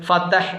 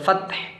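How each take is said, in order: First: A vowel is heard between the t and h. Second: No vowel is heard between the t and h. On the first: The speaker calls it wrong. "ഫതഹ് എന്നായിരിക്കും പലരും" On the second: The speaker calls it right. "ഫത്ഹ് എന്നാണ് അത് ഓതേണ്ടത്"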